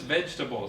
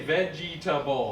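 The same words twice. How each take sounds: First: The middle E sound is dropped. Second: The middle E sound is pronounced. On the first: The speaker calls it right. "just vegetable. So this E here, you don't actually say" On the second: The speaker calls it wrong. "So people will say vegetable"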